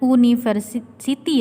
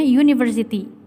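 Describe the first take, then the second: First: The word begins with a plain vowel sound. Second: The word begins with a consonant 'y' sound. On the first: The speaker calls it wrong. "jangan university ya" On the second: The speaker calls it right. "Yang benar itu bacanya university. ... bunyinya dia bukan huruf vokal, tapi konsonan"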